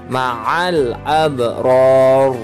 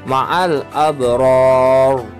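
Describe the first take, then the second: The two takes are said the same way.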